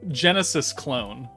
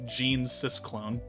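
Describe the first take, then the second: First: It is said as Genesis plus clone. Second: It is said as Gene plus Sysclone. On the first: The speaker calls it right. "I'm glad I reread that name" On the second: The speaker calls it wrong. "the way I was originally going to pronounce that"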